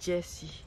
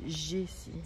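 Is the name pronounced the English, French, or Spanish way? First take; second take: English; French. First: The name is said with an English pronunciation. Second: The name is said with a French pronunciation. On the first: "Mais en anglais, c'est Jessie" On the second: "En français, ils disent Jessie"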